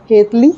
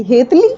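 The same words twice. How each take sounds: First: A father calling her pet name from behind, a touch louder; a lightly voiced father calling his daughter. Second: Mildly startled, questioning rise on हेतली; a touch of shock hearing an old pet name. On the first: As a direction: call out the nickname warmly from behind her. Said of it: "तभी हेतल को पीछे से आवाज़ आई". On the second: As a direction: repeat हेतली in disbelief. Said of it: "Hetal चौंक गई". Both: A narrator's reading.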